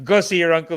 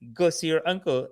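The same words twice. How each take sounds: First: It sounds scolding and insulting. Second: It sounds scheming, like a sales pitch.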